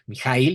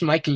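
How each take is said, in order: First: The name is pronounced the German way. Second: The name is pronounced the English way. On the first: The speaker calls it right. "así lo pronuncian en Alemania" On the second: The speaker calls it wrong. "yo decía Michael Ende"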